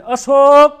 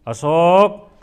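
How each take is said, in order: First: Loud, eager call of a new bride; a new wife sweetly calling her husband's name; newlywed's loving call. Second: Lower, questioning call with a rising end; wife after two years, a bit impatient; changed tone. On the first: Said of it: "લગ્ન થાય નવા નવા". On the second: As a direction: call the name with the shine worn off. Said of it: "એનો tone બદલાય". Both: Acted.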